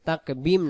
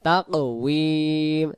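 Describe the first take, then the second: First: The middle consonant is a b sound. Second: The middle consonant is a w sound. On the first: The speaker calls it wrong. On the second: The speaker calls it right.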